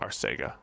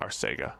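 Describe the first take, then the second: First: The middle consonant is an 's' sound. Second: The same.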